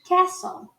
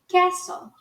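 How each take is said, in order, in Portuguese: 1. Sotaque americano, com uma vogal próxima de 'e'. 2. Sotaque americano, com uma vogal próxima de 'e'.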